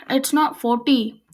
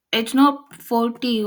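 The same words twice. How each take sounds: First: "forty" said with no clear L, for faulty; slip on "forty". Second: Slow, deliberate "forty", meant as faulty; corrected "forty". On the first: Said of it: "Did I just say forty?". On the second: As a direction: restate "forty" slowly and carefully. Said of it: "No, I said forty". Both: Real, not acted.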